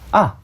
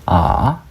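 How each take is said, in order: First: The syllable is said with a falling tone. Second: The syllable is said with a rising tone. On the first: "이게 거성입니다" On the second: "이게 상성이고"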